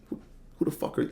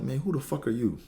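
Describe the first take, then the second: First: Fast, breathy contemptuous whisper of who the fuck are you; whispered attitude. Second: Cold brush-off, slightly higher and falling on who; dismissive attitude. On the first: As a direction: spit it out quick under your breath. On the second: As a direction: sneer it like you've never seen him. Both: Retold or imitated. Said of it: "you get the attitude with it".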